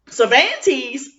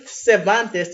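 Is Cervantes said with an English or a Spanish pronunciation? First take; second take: English; Spanish. First: It is said with an English pronunciation. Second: It is said with a Spanish pronunciation. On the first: This is how locals say the name. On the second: This is not how locals say the name.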